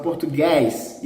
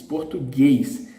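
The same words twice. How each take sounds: First: Português with an open final vowel, like guys; wrong open vowel. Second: Português slowly, with closed final ê; closed vowel. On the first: Teacher shows what it's not, Português with open final vowel. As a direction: open up the last vowel of Português too wide. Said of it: "It's not Português". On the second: Teacher gives the correct sound, Português with closed final ê. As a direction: end Português on a long closed ê. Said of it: "As the sound is closed". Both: Shown as a demonstration.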